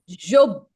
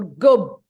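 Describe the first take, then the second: First: It is said with a non-Egyptian j sound. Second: It is said with an Egyptian hard g.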